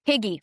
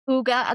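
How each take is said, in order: First: The word sounds like 'higgy'. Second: The word sounds like 'hooga'. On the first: The speaker calls it wrong. "I called it Hi Higgy Higgy for the longest time until I really started studying it" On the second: The speaker calls it right. "I called my business Huga"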